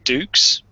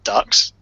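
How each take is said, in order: First: The vowel sounds like the one in 'duke'. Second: The vowel sounds like the one in 'duck'. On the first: The speaker calls it right. "it's meant to be pronounced Dukes" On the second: The speaker calls it wrong. "not Ducks"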